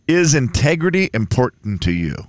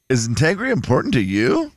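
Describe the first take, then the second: First: The voice falls low at the end. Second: The voice rises high at the end. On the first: It sounds like a statement. The speaker calls it wrong. "You went high at the top to the low to the bottom" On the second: It sounds like a question. The speaker calls it right. "There we go"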